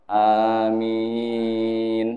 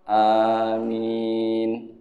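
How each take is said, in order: The two takes are said the same way.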